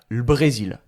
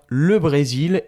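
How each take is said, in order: First: The vowel of 'le' is dropped, only L sounds. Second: The vowel of 'le' is fully pronounced. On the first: "on va prononcer juste le L" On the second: "Mais en début de phrase"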